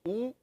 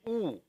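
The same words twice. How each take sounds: First: The vowel is a rounded 'oo' sound. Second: The vowel is a rounded 'oo' sound.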